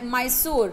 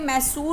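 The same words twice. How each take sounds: First: The name is pronounced the English way. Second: The name is pronounced the Hindi way. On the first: "और English में मैसूर" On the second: "इसको हिंदी में मैसूर बोलते हैं"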